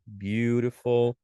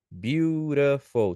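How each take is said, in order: First: Said in the usual way. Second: "beautiful" split slowly into three beats; syllable by syllable. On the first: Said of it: "Pode ver". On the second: Shown as a demonstration. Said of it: "três sílabas".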